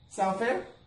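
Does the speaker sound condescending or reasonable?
reasonable. The tone is calm, even and reasonable. The terms are simply fair and expected. The speaker calls it right. "I'm going to go ahead and do it one more time"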